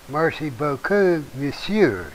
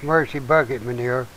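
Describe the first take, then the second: First: It is said with a French pronunciation. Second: It is said with a Southern US pronunciation. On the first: The speaker calls it right. "It's Merci beaucoup, monsieur" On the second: The speaker calls it wrong. "I said the southern version of it"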